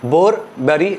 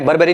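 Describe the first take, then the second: First: The two names are said as separate words. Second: The two names are blended into one word. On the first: The speaker calls it right. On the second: The speaker calls it wrong.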